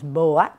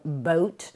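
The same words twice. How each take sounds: First: Each vowel letter is sounded separately. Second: The vowel letters make a single sound. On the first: The speaker calls it wrong. "no decimos boat" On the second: The speaker calls it right. "sino boat"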